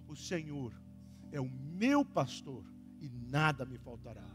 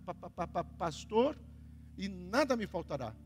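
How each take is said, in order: First: The word pastor is said smoothly without stuttering. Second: The word pastor is stuttered before it comes out.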